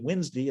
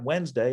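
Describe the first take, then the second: First: It is said the regional Southern way. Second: It is said the usual non-Southern way. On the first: "a lot of people around here, particularly in the South, say Wednesday" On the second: "and not Wednesday"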